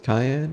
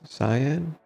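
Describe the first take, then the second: First: It is pronounced like the word cayenne. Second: It is pronounced sigh-an, starting like sigh. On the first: The speaker calls it wrong. "I've said cyan wrong. I said it cayenne" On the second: The speaker calls it right. "but it's cyan"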